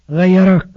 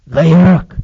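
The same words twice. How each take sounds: First: Said in the usual way. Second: A low-pitched word meant for one ear. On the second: Retold or imitated. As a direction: say it low but firmly, as if into his ear. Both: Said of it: "بس أقولها لك في ودنك بصوت واطي".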